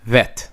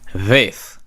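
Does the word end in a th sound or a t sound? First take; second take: t sound; th sound. First: The word ends in a hard t sound. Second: The word ends in a soft th sound. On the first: "people pronounce it now" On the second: "So this will be pronounced Veth"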